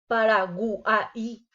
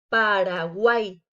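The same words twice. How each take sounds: First: The final vowels are split into separate syllables. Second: The final vowels join in one syllable. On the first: The speaker calls it wrong. "Sería incorrecto decir" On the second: The speaker calls it right. "debe de quedar junta en una sola sílaba"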